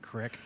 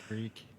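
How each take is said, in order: First: The word is said with a short 'ih' vowel. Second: The word is said with a long 'ee' vowel.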